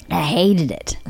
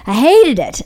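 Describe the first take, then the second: First: Said in the usual way. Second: "I hated it" said higher and louder; louder, emphatic "I hated it"; emphatic repeat. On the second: Real, not acted. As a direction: hit "hated" hard the second time. Repeats the line, second louder.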